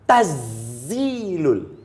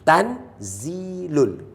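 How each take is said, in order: First: The n merges fully into the z. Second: The n is pronounced clearly before the z. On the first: "Kalau idgham masuk tazilul idgham" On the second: "tan clear. Tanzilul izhar"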